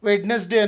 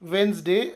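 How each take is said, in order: First: The d is sounded and it has three syllables. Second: The first d is silent; it has two syllables. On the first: The speaker calls it wrong. "ವೆಡ್ನೆಸ್ಡೇ ಅನ್ನೋದಿಲ್ಲ" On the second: The speaker calls it right. "ವೆನ್ಸ್ಡೇ ಅಂತೇವೆ"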